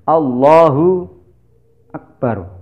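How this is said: A long pause separates Allah and akbar. The speaker calls it wrong. "jeda terlalu lama antara Allah dan akbar"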